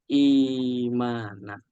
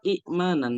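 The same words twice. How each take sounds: First: The first vowel is long with no stop. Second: A glottal stop follows the first vowel. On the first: This is the changed, lightened form. "diubah menjadi huruf mat" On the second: This is the original form with two hamzas. "asalnya itu kan imanan"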